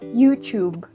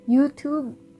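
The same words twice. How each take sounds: First: The 'tube' part does not sound like 'two'. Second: The 'tube' part starts like the word 'two'. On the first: It is the way people say it in the Philippines. "over where I am, we pronounce it as" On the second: It is the way people elsewhere say it. "t- like a two"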